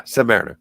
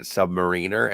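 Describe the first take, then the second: First: Submariner said like mariner, MARE stressed; learned correct pronunciation. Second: Submariner said like submarine, REEN stressed; childhood mispronunciation. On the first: Confirming the pronunciation learned later, sub-MARE-ih-ner. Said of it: "how to pronounce things". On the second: Recalling what they called it as a child, sub-muh-REEN-er. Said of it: "I called it Submariner". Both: Shown as a demonstration.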